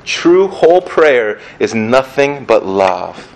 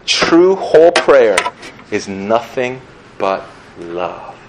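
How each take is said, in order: First: "True whole prayer is nothing but love" said slowly and evenly; a savoring repetition, steady and full; slow repeat. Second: A reverent quotation, slowed right down; slow quoted line. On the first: Shown as a demonstration. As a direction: linger on each word as you say it again. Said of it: "I love that". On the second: Retold or imitated. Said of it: "he once wrote".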